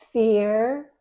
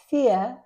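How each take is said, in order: First: It is said in an American accent. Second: It is said in a British accent. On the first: "in American English" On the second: "but in British English"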